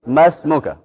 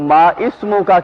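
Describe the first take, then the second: First: The words run together with no stop. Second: The words are separate, with a stop before 'ismu'. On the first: The speaker calls it right. "इस्मों का ई पीछे मिलके साइलेंट हो जाएगा" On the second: The speaker calls it wrong. "मा इस्मों का की बजाय"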